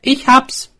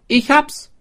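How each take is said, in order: First: High, loud eureka cry; excited discovery. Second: High, loud with a rising end; repeated eureka. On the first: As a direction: burst out with the idea. Swineherd's sudden idea. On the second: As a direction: say it again, triumphant and rising. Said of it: "sagte er noch einmal". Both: A narrator's reading.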